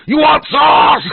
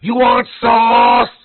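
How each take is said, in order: First: Much higher and louder prank shout in a mock accent; shout out the window. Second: Much higher, louder, slow drawn-out call in a mock Chinese accent; mock yell across the lot. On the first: Prankster shouting at passing students from a car window. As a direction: yell it at the students like the cashier did. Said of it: "I just rolled my window down". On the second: Cashier yelling after departing customers, in a slow high mock Chinese accent. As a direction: holler it slowly across the parking lot. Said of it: "But he yells out".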